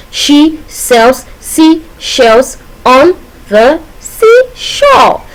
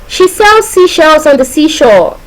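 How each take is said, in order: First: Very slow, separated words, rising high on seashore. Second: Slow, raised singsong recital; higher, measured example sentence; demonstration sentence. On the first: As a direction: pause after every word, lift the last one. Breaking down the repeated consonant sounds. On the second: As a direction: recite it slowly as one smooth tongue-twister line. Teacher demonstrates an alliteration example. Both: Shown as a demonstration.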